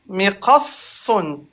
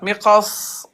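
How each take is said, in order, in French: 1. Le mot finit par une fin -un pleine. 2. Le mot finit coupé sur le s.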